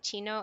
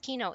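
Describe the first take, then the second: First: The ending starts with a soft ch sound. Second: The ending starts with a hard k sound. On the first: The speaker calls it wrong. "People say chino" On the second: The speaker calls it right. "no, it's kino"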